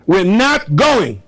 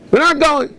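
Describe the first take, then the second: First: High, slow, stubborn refusal; defiant protest. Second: Much higher, insistent refusal; shrill protest cry. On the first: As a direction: souls in heaven refusing to descend, defiant. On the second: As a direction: souls protesting against going down, shrill insistence. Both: Retold or imitated. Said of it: "The Neshamas are saying".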